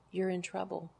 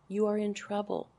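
First: Preacher quietly warns the ladies, hushed and grave; quiet warning. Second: You leaned on, then In trouble said firmly; preacher presses the ladies, stressing You. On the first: A softer grave warning to the women listening. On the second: Firm repeat with weight on You. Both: Shown as a demonstration.

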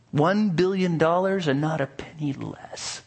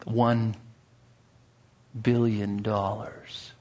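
First: Higher, firm, greedy blacksmith voice; greedy blacksmith demand. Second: Slow, soft, greedy drawl; greedy slow price. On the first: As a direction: state the price, gloating. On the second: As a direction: savour each word, slyly. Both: Acted. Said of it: "A greedy smile crept upon his face".

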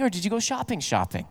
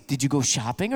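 First: Mock-knowing, falling steeply on the repeated 'shopping'; doubled-word emphasis. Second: 'shopping' said once, lower and rising at the end; low-key question, 'shopping' left open; plain shopping question. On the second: Retold or imitated. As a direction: lightly imitate women asking, lifting on 'shopping'. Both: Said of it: "But for ladies".

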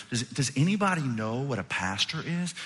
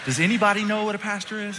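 First: Tentative question with a stuttered start; nervous stumbling. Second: High, raised-voice appeal; exasperated repeat. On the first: Pastor asking a class of children, nervous. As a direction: ask it hesitantly, tripping on the first word. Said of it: "kinda stumbling over my words". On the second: Pastor appealing to the rest of the class, exasperated. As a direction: call it out high over the eager kid. Repeats question over the eager kid. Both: Retold or imitated.

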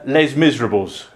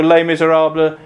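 First: "Les Miserables" read as English, "lez MIZ-ruh-bulls"; grandmother's English "Les Miserables", lez miz-er-a-bulls; anglicised mispronunciation. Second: "Les Miserables" said the French way, "lay mee-zay-RAH-bluh"; French-style "Les Miserables", lay mee-zay-rahb-luh; French pronunciation. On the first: Retold or imitated. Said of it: "she always used to call". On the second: Shown as a demonstration. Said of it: "I hope you like the French accent".

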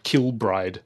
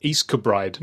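First: Kilbride said slowly with a full KIL; spelling pronunciation. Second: East Kilbride reduced to east-kuh-BRIDE; local pronunciation. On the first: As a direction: sound out Kilbride exactly as spelled, L included. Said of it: "not Kilbride". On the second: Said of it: "it's pronounced". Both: Shown as a demonstration.

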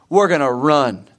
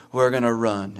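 First: A hint of a firm coach announcing the drill; mild coach voice. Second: Mumbled, softer, unwilling team answer; reluctant team reply. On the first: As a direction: lightly play the coach laying down the rule. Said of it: "your coach, uh, says". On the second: Retold or imitated. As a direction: answer like tired runners who dread it. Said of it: "And you all go".

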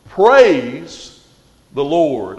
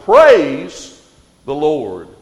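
First: Loud rising Praise, then the Lord; exclaimed praise. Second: "Praise" loud and rising, "the Lord" falling; exclamation point. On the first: Acted. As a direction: proclaim it with joy. Reading psalm ending, exclaimed. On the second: Shown as a demonstration. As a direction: hit "Praise" like an exclamation mark. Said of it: "ends it there with an exclamation point".

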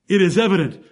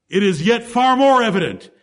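First: Said in the usual way. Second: "more" leaned on as the peak of the phrase; stress on more. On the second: Shown as a demonstration. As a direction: build the line up to "more". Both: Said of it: "But now he says".

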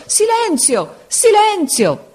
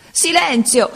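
First: Desperate shriek. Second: Higher cry of silence, anger edged with tears; angry tearful shout. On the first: Supplente disperato urla alla classe, rabbia e pianto. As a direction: scream it, rage breaking into tears. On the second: Supplente esasperato grida alla classe, rabbia e pianto. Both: A narrator's reading. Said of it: "gridava con voce di rabbia e di pianto".

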